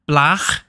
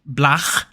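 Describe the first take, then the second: First: The word ends in a throaty rasping sound. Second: The same.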